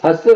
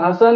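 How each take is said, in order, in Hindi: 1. नाम छोटा करके बोला जाता है, अंत में -sse के साथ। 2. नाम पूरा बोला जाता है, अंत में -san के साथ। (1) "ये इमाम हसन हुसैन के नाम को बिगाड़ना है" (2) "इमाम हसन का नाम हसन है"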